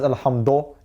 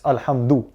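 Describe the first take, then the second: First: The final vowel sounds like 'o'. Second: The final vowel sounds like 'u'. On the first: The speaker calls it wrong. "you don't pronounce it as alhamdo" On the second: The speaker calls it right. "it's alhamdu"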